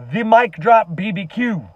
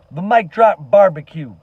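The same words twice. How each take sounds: First: "B B Q" said letter by letter as bee-bee-cue; "B B Q" read as the letters B, B, Q; initialism spelled out. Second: "Barbecue" said as the whole word bar-be-cue; "Barbecue" spoken as one full word, not letters; full word spelled out. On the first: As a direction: spell out "B B Q" as three separate letters. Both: Real, not acted.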